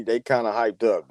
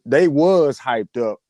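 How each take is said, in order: First: Said in the usual way. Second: Slow, drawn-out stress on "was". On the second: Real, not acted. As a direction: lean hard and long on "was". Correcting "kinda" with emphasis.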